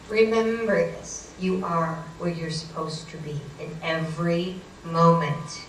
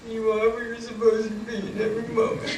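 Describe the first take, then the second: First: Measured, weighty pronouncement; slow solemn advice. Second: Higher put-on reciting voice; grudging mock repetition. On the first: Retold or imitated. Psychic friend calming a frantic driver, slow solemn advice. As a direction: spell it out slowly as a lesson. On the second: Frazzled driver repeating psychic's line on demand, grudging mock repetition. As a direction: parrot the mantra reluctantly, as ordered.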